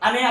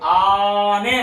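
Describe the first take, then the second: First: The first vowel is said short. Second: The first vowel is drawn out long. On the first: The speaker calls it wrong. "ಅನೇ ಅಲ್ಲ" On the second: The speaker calls it right. "ಎಳಿಬೇಕು ... ಆನೆ ಅನ್ಬೇಕು"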